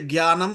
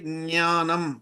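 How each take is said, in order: First: The word begins with a 'gy' sound. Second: The word begins with a 'ny' sound. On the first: This is the Hindi way of saying it. The speaker calls it wrong. "we don't say jnanam" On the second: This is the Sanskrit way of saying it. The speaker calls it right. "we say jnanam"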